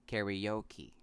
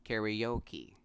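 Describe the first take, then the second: No difference in how they are said.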